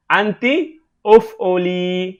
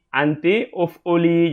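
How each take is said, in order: First: Slow model reading. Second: Said in the usual way. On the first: Shown as a demonstration.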